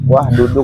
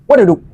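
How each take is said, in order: First: It is said at normal speed. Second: It is said fast.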